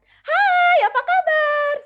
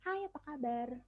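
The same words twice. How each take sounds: First: The greeting is said loudly. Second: The greeting is said softly. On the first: "volumenya keras atau lemah" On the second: "volumenya keras atau lemah"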